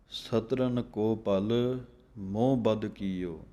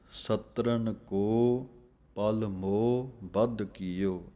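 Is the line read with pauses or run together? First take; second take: run together; pauses. First: The line is run together without pauses. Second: The line has a pause after ਕੋ.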